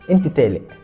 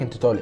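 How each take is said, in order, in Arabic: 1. الحرف الأول خفيف ومرقّق. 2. الحرف الأول ثقيل ومفخّم. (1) "كل الحروف المفخمه عندك مرققه كده" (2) "مش زي الناس العاديه يجي يقول لك انت طالق"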